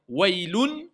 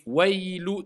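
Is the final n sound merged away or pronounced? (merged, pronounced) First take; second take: pronounced; merged. First: The final n sound is clearly pronounced. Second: The final n sound is dropped and merged. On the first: The speaker calls it wrong. "on ne va pas dire wailun" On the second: The speaker calls it right. "On dit wailu"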